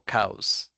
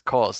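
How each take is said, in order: First: The vowel sounds like the one in 'cows'. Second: The vowel sounds like the one in 'because'. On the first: The speaker calls it wrong. "no cows" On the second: The speaker calls it right. "it's like when we said because, it's cause"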